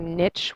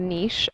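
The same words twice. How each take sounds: First: The word is said the Anglophone way. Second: The word is said the non-Anglophone way. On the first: The speaker calls it wrong. "which is such an Anglophone way of pronouncing it" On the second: The speaker calls it right. "I would prefer to pronounce it that way"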